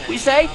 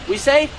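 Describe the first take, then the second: No difference in how they are said.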